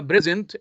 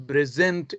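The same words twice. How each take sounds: First: "present" as a noun, PRE-sent; stress on first syllable. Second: "present" as a verb, pre-SENT; stress on second syllable. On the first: Teacher contrasting noun with verb, first-syllable stress on "present". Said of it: "present is a noun". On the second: Teacher contrasting verb with noun, second-syllable stress on "present". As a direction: hit the last syllable of "present". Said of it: "present is a verb". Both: Shown as a demonstration.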